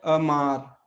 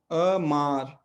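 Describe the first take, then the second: First: अमार said slowly with a short first a; Portuguese word demo. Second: अमार stretched very slowly, a-maar; drawn-out word demo. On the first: Teacher modelling amar for students, slowly. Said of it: "तो जैसे शब्द है अमार". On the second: Teacher stretching amar for students, very slowly. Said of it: "तो ये अमार।". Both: Shown as a demonstration.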